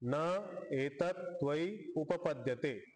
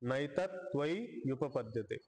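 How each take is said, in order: First: Each word is said separately without joining sounds. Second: The words run together with the vowels merged. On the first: "चार शब्द आहेत" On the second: "उच्चारण करताना नैतत"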